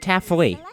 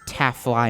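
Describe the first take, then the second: First: The last syllable sounds like the end of taffy. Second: The last syllable rhymes with fly.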